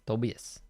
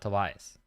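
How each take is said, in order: First: The name is said with Brazilian Portuguese sounds. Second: The name is said with English sounds. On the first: The speaker calls it right. "he's Brazilian, so it's Tobias" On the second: The speaker calls it wrong. "And not Tobias"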